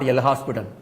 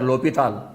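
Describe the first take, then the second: First: The name is said with an s sound. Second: The name is said without an s sound. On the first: The speaker calls it wrong. "not L hospital" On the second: The speaker calls it right. "S is a silent word"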